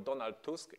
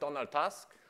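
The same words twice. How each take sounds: First: The name has a Polish pronunciation. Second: The name has an English pronunciation.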